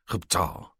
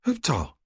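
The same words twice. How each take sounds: First: Said in the usual way. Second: Huptal in a much higher, happy woman's voice. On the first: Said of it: "It comes out more as". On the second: A narrator's reading. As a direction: say Huptal high and pleased, as she does. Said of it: "she says happily".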